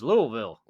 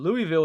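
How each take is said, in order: First: The first part is reduced, like 'lull'. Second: The first part sounds like the name Louis. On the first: It is how the locals say it. "But when I'm here in Indiana or the South or anywhere, ... it's Louisville, like almost" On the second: It follows the city's namesake, the French king. "so Louisville would be probably the normal way to say it"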